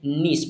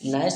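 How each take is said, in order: First: The vowel sounds like 'ee'. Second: The vowel sounds like 'eye'. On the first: The speaker calls it wrong. "ना कि हम इसे नीस पढ़ गए" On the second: The speaker calls it right. "N आई सी ई को पढ़ते हैं नाइस"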